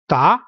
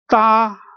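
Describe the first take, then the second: First: The pitch rises through the syllable. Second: The pitch stays level and flat. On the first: "going up"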